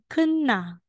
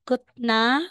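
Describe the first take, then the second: First: The first syllable ends in an n sound. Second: The first syllable ends in a t sound. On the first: The speaker calls it right. "magiging kunna" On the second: The speaker calls it wrong. "Instead na sasabihin mong kutna"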